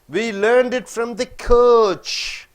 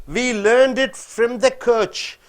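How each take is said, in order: No difference in how they are said.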